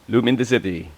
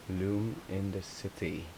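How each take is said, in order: First: Louder, bright announcement of the name; emphatic. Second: Slow, soft name, almost to herself. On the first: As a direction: Loom in the City called out clearly. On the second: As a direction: Loom in the City said slowly and quietly. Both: Shown as a demonstration.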